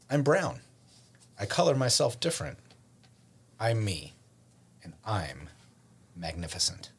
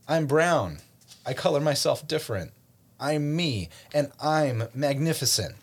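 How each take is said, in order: First: It is said at normal volume. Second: It is said more loudly.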